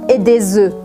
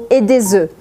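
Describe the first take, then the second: No difference in how they are said.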